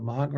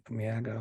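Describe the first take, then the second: First: "maga" with a broad ah, MAH-guh; tentative MAH-guh for "maga"; unsure pronunciation. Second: "maga" with a stretched front a, MYAG-uh; tentative, quieter MEAG-uh for "maga"; unsure alternative pronunciation. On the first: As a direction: try "maga" with the first vowel as in father. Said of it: "I can't pronounce it". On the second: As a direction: try "maga" softly with the first vowel as in cat, slightly glided. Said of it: "however you say it". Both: Shown as a demonstration.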